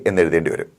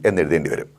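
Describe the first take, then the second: The two takes are said the same way.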